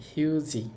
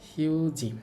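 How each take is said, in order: No difference in how they are said.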